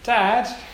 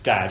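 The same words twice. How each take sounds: First: The pitch moves within the word. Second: The pitch stays level across the word. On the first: "it often sounds like this. There's always a little inflection to it" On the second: "It's never just "dad,""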